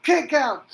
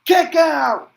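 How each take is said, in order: First: "kick out" shouted again, a bit less loud; repeated excited shout. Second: "kick out" yelled high and loud; excited call. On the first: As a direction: echo the call, still hyped. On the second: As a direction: shout it as the kick-out lands. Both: Acted. Calling a kick out.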